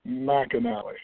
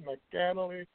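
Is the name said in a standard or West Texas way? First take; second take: West Texas; standard. First: The name is said the West Texas way. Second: The name is said the plain phonetic way.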